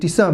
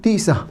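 First: The stress is on the last syllable. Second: The stress is on the first syllable. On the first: The speaker calls it right. "הטעם נמצא מעל הסין" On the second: The speaker calls it wrong. "ולא טיסה"

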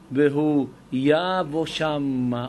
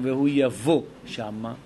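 First: The verb is stressed on its first syllable. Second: The verb is stressed on its last syllable. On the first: The speaker calls it right. "והיא תבוא לנו מלעל" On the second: The speaker calls it wrong. "למה אני לא אומר"

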